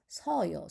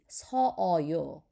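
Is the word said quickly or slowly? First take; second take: quickly; slowly. First: It is said quickly with the vowels merged. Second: It is said slowly with both vowels drawn out. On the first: "Or if you say fast" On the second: "if you say slowly"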